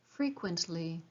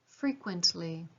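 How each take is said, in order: The two takes are said the same way.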